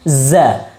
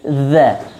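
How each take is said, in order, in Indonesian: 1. Konsonannya bunyi z yang berdengung. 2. Konsonannya bunyi th yang lembut. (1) "jangan sampai kita membacanya dengan huruf zai" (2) "Jadi lidah sedikit seperti tergigit"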